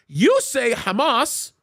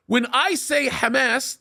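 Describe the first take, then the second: First: Hamas as hə-MAHS, reduced first vowel; American pronunciation. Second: Hamas with open Arabic a vowels, hæ-mæs; Arabic pronunciation. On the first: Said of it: "your tongue is American". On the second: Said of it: "that's what we say in the Arabic language". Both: Shown as a demonstration.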